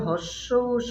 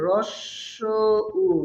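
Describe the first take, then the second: First: The first word starts with a plain h sound. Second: The first word starts with an r sound. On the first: The speaker calls it wrong. "আসলে হস্য উ সঠিক উচ্চারণ নয়" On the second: The speaker calls it right. "সঠিক উচ্চারণ হবে রস্য উ"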